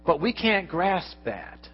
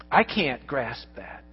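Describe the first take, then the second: First: We said slowly, with the weight on we; stress on we. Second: I said slowly and personally, with the weight on I; stress on I. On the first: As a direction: lean on we, then let the line fall. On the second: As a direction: put the weight on I, then fall. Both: Shown as a demonstration.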